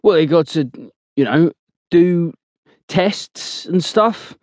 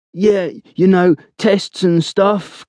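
First: Slow, hesitant, unsure words; faltering. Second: Slow, dragged mocking copy of a friend; imitating Blowers. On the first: Acted. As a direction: stall and drag each word out. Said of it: "Blowers answers with a faltering tone". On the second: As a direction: parrot his hesitant voice back slowly. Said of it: "imitating Blowers' voice".

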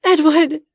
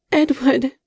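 First: Much higher, loud desperate cry; a frantic, louder second call to Edward. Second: High, loud call of his name; frantic call to her wounded love. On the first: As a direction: scream his name as he slips away. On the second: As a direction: cry out to him across the room. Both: A narrator's reading. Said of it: "she called again".

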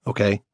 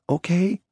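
First: Said in the usual way. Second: "Okay." high and small, rising, holding back tears; a girl forcing control over tears; near tears. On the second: A narrator's reading. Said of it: "on the verge of tears now, forcing control".

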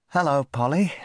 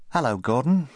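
First: High, coaxing hello; boy gently greeting a parrot. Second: High, friendly hello; boy greeting the parrot by name; corrected greeting. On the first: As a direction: coax the parrot to talk. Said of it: "he said to the parrot". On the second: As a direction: try again with the right name. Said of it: "said Rupert". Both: Acted.

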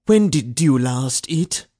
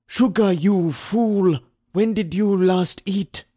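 First: Questioning overseer. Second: High, slow, exasperated bark; harsh barking commands. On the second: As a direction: snap at the fool, dragging it out. Overseer repeats the question, angrier. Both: A narrator's reading.

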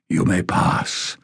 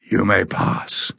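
First: Slow, rasped grant of passage; a hint of a hoarse sentinel; rasping guardian. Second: Even tone. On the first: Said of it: "in a low, rasping voice". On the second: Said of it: "with no change of tone". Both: A narrator's reading.

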